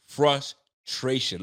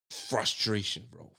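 First: Frustration stretched very slowly; slow drawn-out word. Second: Frustration said much lower and softer; low frustrated sigh. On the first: Fan venting after the loss, very slow drawn-out Frustration. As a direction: drag Frustration out syllable by syllable. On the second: Fan venting after the loss, low heavy Frustration. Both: Real, not acted.

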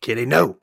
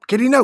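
First: Said in the usual way. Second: High, loud cat scolding. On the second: Real, not acted. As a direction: yell at the cat to stop. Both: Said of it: "my cat is walking across".

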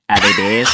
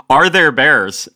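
First: Dopey Australian tourist impression; imitated Australian accent. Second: Said in the usual way. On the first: Australian seatmate on a flight to Alaska, imitated Australian accent. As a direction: ask it in a put-on Australian accent. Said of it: "when I think of an Australian accent".

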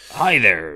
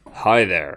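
First: Lightly put-on creepy clown voice; a hint of the clown from It; silly clown. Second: Lightly voiced creepy villain; a hint of a menacing lurker; creepy stalker greeting. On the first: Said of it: "he sounded a bit like, um, the clown from It". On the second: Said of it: "he comes in and goes".

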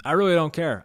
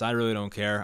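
First: "really" hit loud, as a blunt declaration; loud, fed-up insistence on "really"; emphatic. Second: Said in the usual way. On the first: Real, not acted. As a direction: punch out "really" with real frustration. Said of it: "I, I really don't care".

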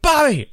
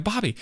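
First: High, loud retold yell. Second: High, short call for attention. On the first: Fan yelling over a screaming comedian to get his attention. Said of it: "so I yell". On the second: Retold or imitated. Fan approaching a comedian he admires, calling out. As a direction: lightly hail him by name, without yelling. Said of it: "and I'm like".

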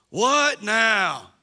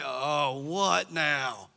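First: Loud exasperated what now shouted back; a mock teenage outburst; sarcastic kid. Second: Muttered, low sarcastic grumble; sarcastic kid. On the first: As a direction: yell it like a fed-up child. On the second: Retold or imitated. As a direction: sigh it out like a fed-up kid. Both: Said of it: "There's a lot of sarcasm".

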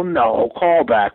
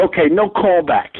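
First: "No," then a pause, then a slow "callback", as a yes; casting people teasing, then "No, callback" said slowly. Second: Casting people turning down a callback, stress on "no". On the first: Casting office reversing, "No," pause, "callback". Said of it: "They go". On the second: Casting office refusing him, "no callback" falling. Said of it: "And they go". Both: Retold or imitated.

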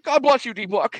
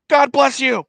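First: High, raised mock holler; hammed-up called-out blessing; retold called blessing. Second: High, loud mock holler; hammed-up shouted blessing; retold shouted blessing. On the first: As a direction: re-enact hailing a player, pitched way up. Retold blessing, acted once more. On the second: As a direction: re-enact calling out, pitched way up.

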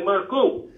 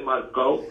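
First: Marco ending in an OO sound; Maltese Marco. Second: Marco ending in an OH sound; wrong Marco. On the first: Teaching the hosts the name, "Marco" ending in OO. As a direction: say "Marco" as "Mar-coo". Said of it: "we say Marco". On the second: Correcting the hosts on the name, "Marco" ending in OH. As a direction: say "Marco" with a final "oh". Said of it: "we don't say Marco". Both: Shown as a demonstration.

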